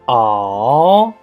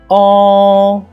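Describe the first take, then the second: First: The pitch dips down and then rises. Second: The pitch stays high and level. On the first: "The third tone, remember, down and up" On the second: "The first tone is a flat tone"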